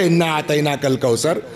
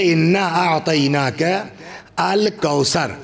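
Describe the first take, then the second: First: The words run together with the alif silent. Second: The words are said separately with the alif sounded. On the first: "पढ़ा जाएगा" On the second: "सही है"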